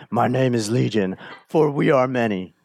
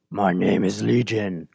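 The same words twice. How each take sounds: First: A light hint of a demon voice; demonic voice. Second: Lower, hollow demon voice answering Jesus; demonic voice. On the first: Preacher repeating the demon's reply, lightly voiced demon. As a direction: voice the demon only lightly, near plain. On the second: Acted. Preacher voicing the demon Legion to Jesus, low demonic voice. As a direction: let the demon speak low and dark. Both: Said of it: "This demonic voice".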